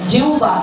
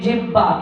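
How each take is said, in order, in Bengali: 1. মাঝের অংশটি একটি u-সদৃশ গ্লাইড দিয়ে উচ্চারিত হয়। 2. মাঝের অংশটি h ধ্বনি দিয়ে উচ্চারিত হয়। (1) "ব্যাকরণগত দিক থেকে সঠিক উচ্চারণ হলো জিউবা" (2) "অঞ্চলগত ভাবে এটাকে বলে ফেলি জিহ্বা"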